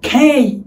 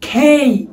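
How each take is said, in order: First: It starts with a breathy k and glides. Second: It starts with a breathy k and glides.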